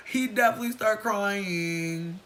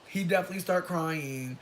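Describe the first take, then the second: First: Slow, loud insistence on definitely; emphatic repeat. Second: Said in the usual way. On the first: Real, not acted. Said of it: "repeats for emphasis". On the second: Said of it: "repeats again".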